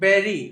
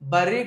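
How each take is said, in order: First: The first vowel sounds like the 'e' in 'bed'. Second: The first vowel sounds like the 'ur' in 'fur'. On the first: The speaker calls it right. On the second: The speaker calls it wrong. "బర్రీ కాదండి"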